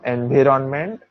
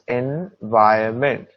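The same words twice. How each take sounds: First: The n before 'ment' is pronounced. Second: The n before 'ment' is silent. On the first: The speaker calls it wrong. "this does not become environment" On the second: The speaker calls it right. "N is silent"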